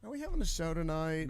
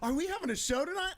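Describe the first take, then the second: First: It sounds weary, as if dreading a show. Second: It sounds thrilled, with an excited gasp.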